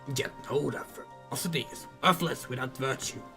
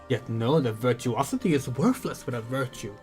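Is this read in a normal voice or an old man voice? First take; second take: old man; normal. First: It is said in a put-on old man voice. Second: It is said in the speaker's normal voice. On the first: "We completely forgot the old man voice we were doing" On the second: "no old man voices until we're more healed"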